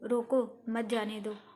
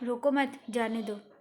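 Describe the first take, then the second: First: There is a pause right after रोको. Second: There is a pause right after मत. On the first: Stop him, do not let him go. "दूसरे वाक्य में विराम चिन्ह का प्रयोग होने से अर्थ प्रकट हो रहा है कि उसको रोको" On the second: Do not stop him, let him go. "तीसरे वाक्य में विराम चिन्ह का अलग स्थान पर प्रयोग"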